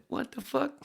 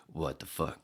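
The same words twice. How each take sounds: First: Much higher, louder shocked yell; a stunned on-air shout. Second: Said in the usual way. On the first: Retold or imitated. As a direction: blurt it out on air in disbelief. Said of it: "they went on the air and said". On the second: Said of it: "without saying".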